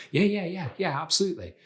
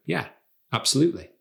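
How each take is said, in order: First: High, hurried string of yeses; eager rapid yeses. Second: A single yeah, pause, then absolutely; measured, controlled agreement. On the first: Coach shows over-eager agreement to a request, eager and hurried. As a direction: agree too keenly, repeating yeah at a higher pitch. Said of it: "instead of when someone says something like". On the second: Coach shows confident agreement to a request, measured and controlled. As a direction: agree calmly, leaving space between the words. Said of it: "Instead, you might just wanna go". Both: Shown as a demonstration.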